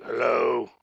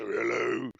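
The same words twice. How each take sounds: First: Mock deep-voiced phone hello. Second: Deep voice. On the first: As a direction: answer with a put-on deep voice. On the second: Acted. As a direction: drop the voice down for a mock-deep hello. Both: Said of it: "had a deeper voice than both of us".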